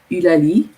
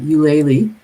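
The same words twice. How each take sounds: First: The name is said with a French pronunciation. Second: The name is said with an English pronunciation. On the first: "it's really pretty in French when you pronounce it" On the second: "pronounced in English is uh"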